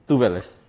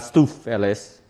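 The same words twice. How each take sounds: First: "Tuveles" with a soft v sound; corrected pronunciation. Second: "stuffeles" slowly, with an f sound; mistaken pronunciation. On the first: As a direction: say "Tuveles" as TOO-vuh-lis, v not f. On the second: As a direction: break "stuffeles" after a hard f. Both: Shown as a demonstration. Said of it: "not stuffeles".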